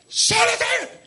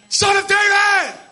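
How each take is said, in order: First: It is said more quietly. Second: It is said much louder.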